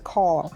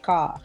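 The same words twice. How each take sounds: First: It is said with a general accent, with r. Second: It is said with a Boston accent, no r.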